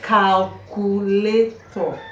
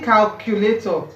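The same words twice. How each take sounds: First: Pronounced without a Ghanaian accent. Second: Pronounced with a Ghanaian accent. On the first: This is how the speaker's own group says it. "We say calculator" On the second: This is how the other person's group says it. "You are saying calculator"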